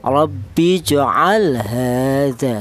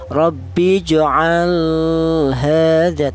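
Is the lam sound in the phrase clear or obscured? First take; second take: clear; obscured. First: The lam sound is pronounced clearly. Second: The lam sound is pronounced obscured. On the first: The speaker calls it right. "lam mati ini cara baca dibaca jelas" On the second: The speaker calls it wrong. "Tidak boleh lam mati ini dibaca samar"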